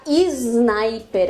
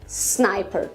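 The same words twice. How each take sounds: First: An extra vowel precedes a buzzing z sound. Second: It starts directly with a hissing s sound. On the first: The speaker calls it wrong. "cuidado para não falar sniper... a gente insere um i e faz o s com som de z" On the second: The speaker calls it right. "é um s com som de s mesmo e sem aquele zinho"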